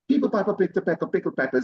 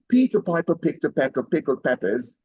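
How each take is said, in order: First: It is said at a faster pace. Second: It is said at a slower pace.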